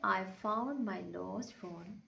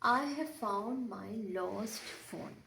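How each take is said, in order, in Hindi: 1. 'have' शब्द छोटा होकर और हल्का बोला जाता है। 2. 'have' शब्द पूरा बोला जाता है।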